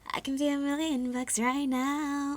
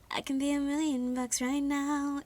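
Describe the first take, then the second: First: It is said in a fun, flirty, cutesy way. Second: It is said plainly, without playful charm. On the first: The speaker calls it right. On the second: The speaker calls it wrong.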